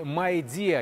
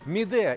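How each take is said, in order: First: The name begins with a gliding 'my' sound. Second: The name begins with a plain 'mee' sound. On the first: This is the proper pronunciation. "если уж правильно произносить" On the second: This is the form commonly used locally. "у нас именно вот первый вариант как-то прижился"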